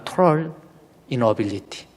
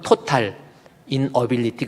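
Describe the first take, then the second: First: It is said in a British accent. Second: It is said in a Southeast Asian-style accent. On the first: "영국식 발음은" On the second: "우리 동남아식 발음으로는"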